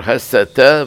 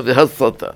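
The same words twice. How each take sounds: First: הסתה with a plain s, hasata; with samekh. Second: והסתה with tsadi in place of samekh, ve-hatsata. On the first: Rabbi contrasting two words, הסתה with a plain s. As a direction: say הסתה slowly with a samekh s sound. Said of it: "הסתה בסמך". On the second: Rabbi contrasting two words, והסתה with tsadi. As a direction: say והסתה slowly, its s turned to a tsadi. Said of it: "והסתה בסדי". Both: Shown as a demonstration.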